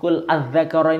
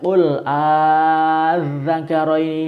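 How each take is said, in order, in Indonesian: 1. Vokal pembuka setelah qul pendek. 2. Vokal pembuka setelah qul dibaca panjang. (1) "Jangan hanya dibaca ... ini jangan"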